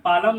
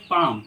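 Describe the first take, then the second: First: "पालम" in two syllables, paa-lam; wrong pronunciation. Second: "पाम", long aa straight into M; silent L. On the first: Teacher showing students what not to say, पालम with audible L. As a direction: say पालम with the L sounded. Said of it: "इसको हम पालम नहीं पढ़ेंगे". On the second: Teacher correcting the reading of palm, पाम with no L. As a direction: say पाम as one long syllable. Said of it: "इसको पढ़ेंगे पाम". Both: Shown as a demonstration.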